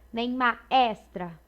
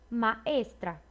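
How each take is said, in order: First: The E vowel is open. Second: The E vowel is closed. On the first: The speaker calls it wrong. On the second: The speaker calls it right. "é um som mais fechado"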